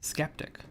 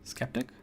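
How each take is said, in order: First: The word starts with an SK sound. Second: The word starts with an SK sound.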